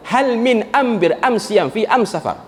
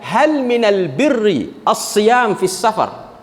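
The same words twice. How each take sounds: First: "am siam", "am safar" with m in place of the article's l; slow dialect reading, "al" turned into "am"; Huzail dialect Arabic. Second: "minal birri" with clear l and long rolled r, "as-siyam" with doubled s; very slow, formal Arabic articles in place of "am"; standard Fusha Arabic. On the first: Teacher showing the tribe's question, dialect "am" for "al". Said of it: "semua alif lam akan disebut dengan alif mim". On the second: Teacher restating the tribe's question, in slow standard Arabic "minal birri". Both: Shown as a demonstration.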